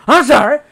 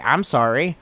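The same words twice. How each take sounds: First: Loud, high hammed-up outburst; mock indignant shout. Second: Said in the usual way. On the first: Streamer excusing his Fourth of July drinking, mock indignant shout. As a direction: yell it in mock protest.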